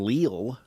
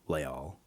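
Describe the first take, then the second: First: The name is said as it reads on paper. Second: The name is said with its cultural pronunciation. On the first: "just the way you say it when you read it" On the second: "appropriate cultural way to say it"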